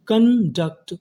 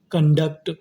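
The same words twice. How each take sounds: First: conduct split as कन, duct, stretched; syllable-by-syllable. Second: Said in the usual way. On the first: Shown as a demonstration. Teacher building conduct for students, drawn out and split. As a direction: pause between the halves of conduct. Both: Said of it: "तो meaning क्या बनी".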